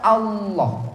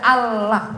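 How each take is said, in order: First: The L is heavy and deep-sounding. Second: The L is light, like plain 'la'. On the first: It glorifies the divine name. "nah ini karena kita mengagungkan asma" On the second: It is the ordinary reading by non-Muslims. "La lam di fathah la, kalau di tasdid ya Allah gitu kan"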